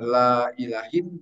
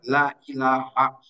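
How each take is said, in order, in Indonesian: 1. Kata terakhir berakhir dengan bunyi -in. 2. Kata terakhir berakhir dengan bunyi -a pendek. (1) "bisa dibaca la ilahin" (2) "tetapi harus dibaca la ilaha"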